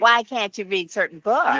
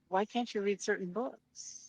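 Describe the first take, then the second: First: The question is asked in a harsh, challenging tone. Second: The question is asked in a gentle, sincere tone. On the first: The asker is being confrontational. "It wasn't like" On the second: The asker is genuinely curious. "he asked it like really nicely"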